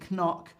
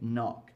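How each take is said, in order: First: A 'k' sound is said before the 'n'. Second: No 'k' sound is said before the 'n'. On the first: The speaker calls it wrong. "I don't say knock" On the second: The speaker calls it right. "I say knock"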